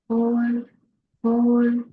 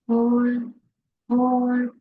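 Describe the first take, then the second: No difference in how they are said.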